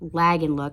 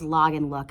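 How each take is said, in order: First: The first vowel is a front 'a' sound. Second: The first vowel is an open 'ah' sound. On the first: The speaker calls it right. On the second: The speaker calls it wrong. "consistently says"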